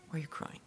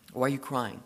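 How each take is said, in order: First: The question repeated in a soft, breathy whisper. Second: Said in the usual way. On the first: Acted. Jesus gently asking weeping Mary, whispered. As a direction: hush it, gentle and intimate.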